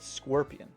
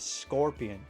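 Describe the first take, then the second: First: The first vowel sounds like in 'squirt'. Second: The first vowel sounds like in 'scorch'. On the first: "like squirt, and not like scorch" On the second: "some people pronounce scorpion like scorpion"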